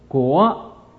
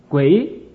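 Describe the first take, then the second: First: The vowel is a rounded 'uo' sound. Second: The vowel is an 'ui' sound. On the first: "国语就说国啊" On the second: "在山东人就读成什么呢？读成鬼"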